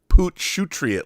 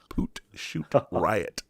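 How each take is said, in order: First: The ending is run together, rhyming with patriot. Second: The ending is said as separate words, shoot riot. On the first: The speaker calls it wrong. "I thought it was Poot Shootriot, like Patriot" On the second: The speaker calls it right. "but it's Poot Shoot Riot"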